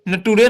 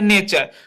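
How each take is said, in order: First: The word is said as 'na-too-re' with a t sound. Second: The word is said as 'nay-cher' with a ch sound. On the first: The speaker calls it wrong. "नटूरे नहीं पढ़िएगा दोस्तों" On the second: The speaker calls it right. "तो इसे क्या पढ़ते हैं, नेचर"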